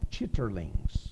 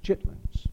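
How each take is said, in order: First: The word is said with three full syllables. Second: The word is said with only two syllables. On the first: The speaker calls it wrong. "Looks like it ought to be pronounced chitterlings" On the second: The speaker calls it right. "It's chitlins"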